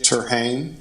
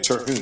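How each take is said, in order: First: The last syllable sounds like 'hane'. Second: The last syllable sounds like 'hune'. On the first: The speaker calls it wrong. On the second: The speaker calls it right.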